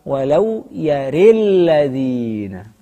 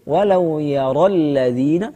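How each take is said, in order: First: The vowel after the r leans toward i. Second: The vowel after the r is an open a. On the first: This is the second permitted reading. "dengan wajah kedua" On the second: This is the reading of the majority. "seperti jumhur"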